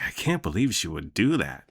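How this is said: It is said in a sarcastic tone.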